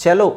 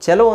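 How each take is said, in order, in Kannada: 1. ಈ ಪದ ch ಶಬ್ದದಿಂದ ಆರಂಭವಾಗುತ್ತದೆ. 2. ಈ ಪದ ch ಶಬ್ದದಿಂದ ಆರಂಭವಾಗುತ್ತದೆ.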